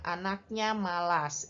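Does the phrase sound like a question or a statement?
statement. It is said with plain statement intonation. It states a fact. "Itu bukan pertanyaan ya"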